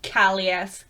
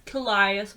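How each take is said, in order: First: Callias said as KAL-ee-us; first-syllable pronunciation. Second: Callias said as kuh-LIE-us; second-syllable pronunciation. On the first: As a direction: stress the first syllable of Callias, short "a" as in "cat". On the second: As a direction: stress the middle of Callias, rhyming it with "lie". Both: Shown as a demonstration. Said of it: "whatever the fuck your name is".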